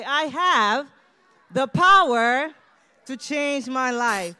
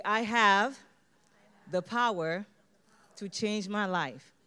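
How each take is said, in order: First: Much louder and higher, slow and forceful; with energy. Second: Loud, slow, deliberate affirmation. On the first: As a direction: belt it out with full energy. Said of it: "say it with some energy". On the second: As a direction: say each word like a vow. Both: Shown as a demonstration.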